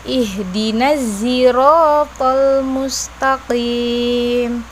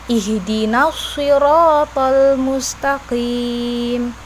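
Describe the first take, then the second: First: Sirata begins with a z sound. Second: Sirata begins with an emphatic s sound. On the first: "dengan huruf zai" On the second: "menggunakan huruf shad"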